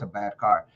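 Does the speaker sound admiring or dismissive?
dismissive. The voice sounds flat and dismissive. The car is truly horrible. "just the tone is like, "Okay, that was a bad car,""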